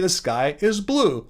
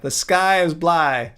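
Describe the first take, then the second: First: The last word ends with an 'oo' sound. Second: The last word ends with an 'eye' sound. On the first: The speaker calls it right. "He would say the sky is blue" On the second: The speaker calls it wrong. "He would never say the sky is bly"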